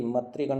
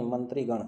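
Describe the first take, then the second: First: "मंत्रीगण" without the nasal n, as "matrigan"; wrong pronunciation. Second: "मंत्रीगण" with a clear nasal n, "mantrigan"; correct pronunciation. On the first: Teacher shows students the misspelt word, wrong pronunciation without the nasal. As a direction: say "मंत्रीगण" as "matrigan", dropping the first n. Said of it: "नहीं". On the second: Teacher gives students the corrected word, nasal n pronounced. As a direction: sound the n before t in "मंत्रीगण". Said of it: "क्या आएगा?". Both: Shown as a demonstration.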